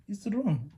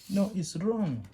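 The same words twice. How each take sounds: First: Wrong pitched higher and falling; higher, falling it's wrong; firm correction. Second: No pitched higher with a falling close; high, falling no, it's wrong; firm correction. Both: Shown as a demonstration. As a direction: correct the mistake firmly. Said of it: "I used to see student learners doing like this".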